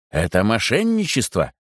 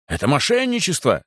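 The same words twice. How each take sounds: First: Said in the usual way. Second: Higher-pitched outcry, only mildly raised; indignant cry. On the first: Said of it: "сказал он, вставая". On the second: A narrator's reading. Stubborn guest accuses the chaplain, indignant cry. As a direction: protest with a contained shout. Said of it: "закричал упрямый гость".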